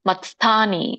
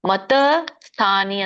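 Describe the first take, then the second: First: The t joins straight onto sth with no vowel. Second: A short vowel is added after the t. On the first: The speaker calls it right. "ತ ವ್ಯಂಜನ ಇದ್ದಾಗ ಸ ಕೂಡಿಸ್ಬೇಕು" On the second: The speaker calls it wrong. "ಮತ ಸ್ಥಾನಿ ಅಂದ್ರೆ ತಪ್ಪು"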